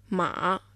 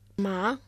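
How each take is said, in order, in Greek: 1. Λέγεται με τον τρίτο τόνο. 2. Λέγεται με τον δεύτερο τόνο. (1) "Μα με τον τρίτο τόνο" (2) "Μα με τον δεύτερο τόνο"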